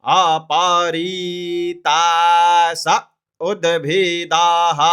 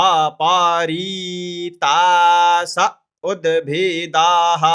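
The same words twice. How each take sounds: No difference in how they are said.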